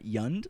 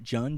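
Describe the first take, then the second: First: The word begins with a Y sound. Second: The word begins with a J sound. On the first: The speaker calls it right. "not Yund like everyone else" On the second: The speaker calls it wrong. "pronounce it Jund"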